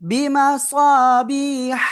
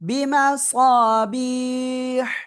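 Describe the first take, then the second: First: The word runs straight into the next words. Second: The reading stops fully after this word. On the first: "আবার এখান থেকে যদি মিলিয়ে পড়ি" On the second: "এখানে থেমে পড়লে এমন হবে"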